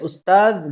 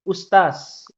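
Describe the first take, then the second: First: The word ends with a d sound. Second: The word ends with an s sound. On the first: This is the standard pronunciation. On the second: This is a regional dialect pronunciation.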